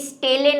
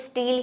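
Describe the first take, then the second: First: The word is said with two syllables. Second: The word is said as one syllable. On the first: The speaker calls it wrong. "ये स्टेले नहीं है" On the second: The speaker calls it right. "इसको स्टील ही कहते हैं"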